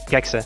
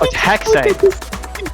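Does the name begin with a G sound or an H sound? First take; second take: G sound; H sound. First: The name begins with a hard G sound. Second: The name begins with an H sound. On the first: The speaker calls it wrong. "I'm gonna cry if I keep pronouncing that wrong" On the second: The speaker calls it right. "Oh, it's H? pronounced like an H?"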